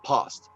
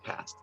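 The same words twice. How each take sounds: First: The vowel is a long, open 'ah' sound. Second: The vowel is a short, flat 'a' sound. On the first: "they say past" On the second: "They don't say past"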